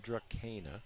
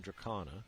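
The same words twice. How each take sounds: First: Drakena with a hard k and ee sound, Dra-KEE-na; mispronounced name. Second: Dracana with a hard k and ah sound, dra-KAH-na; correct name. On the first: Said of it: "I called them Drakena". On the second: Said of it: "you called them Dracana". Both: Shown as a demonstration.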